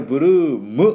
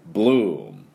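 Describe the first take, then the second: First: A vowel sound follows the final M. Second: The word ends on a closed-lip M. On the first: The speaker calls it wrong. "bloom って言ってM をつけてはいけません" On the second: The speaker calls it right. "これで終わりです"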